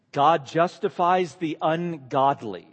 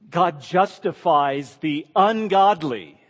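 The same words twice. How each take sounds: First: God justifies the ungodly, each word set down slowly; slow, weighty statement. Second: Ungodly leaned on, louder and slow; stress on ungodly. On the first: Teacher giving the key sentence slowly to memorize, weighty. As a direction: let it land word by word. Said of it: "Here's the succinct statement". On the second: Preacher repeating the key sentence, pressing ungodly hard. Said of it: "Just take that in". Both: Shown as a demonstration.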